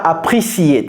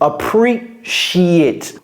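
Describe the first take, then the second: First: The middle consonant is a plain 's' sound. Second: The middle consonant is a 'sh' sound. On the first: The speaker calls it wrong. "Ceci n'est pas appreciate, see it" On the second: The speaker calls it right. "C'est comme si c'était un C H, ch, sheet"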